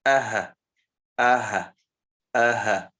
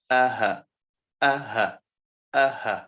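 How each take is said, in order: Both takes have the same delivery.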